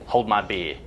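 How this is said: It is said in an Australian accent.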